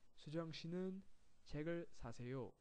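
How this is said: The voice stays down at the end.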